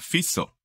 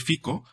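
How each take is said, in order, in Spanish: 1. El nombre se dice como lo dice un nativo. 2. El nombre se lee como se ve escrito. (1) "pero se pronuncia Fico" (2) "se escribe Fico"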